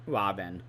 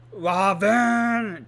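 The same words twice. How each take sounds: First: Said in the usual way. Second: Loud, high mock scream of a name; retold scream. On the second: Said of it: "just, like, screaming".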